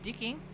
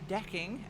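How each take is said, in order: First: The first vowel is raised toward an 'i' sound. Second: The first vowel is an open 'e' sound. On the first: "as uh, dicking" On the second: "I will make sure to pronounce uh, decking as"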